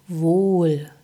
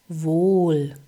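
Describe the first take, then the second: No difference in how they are said.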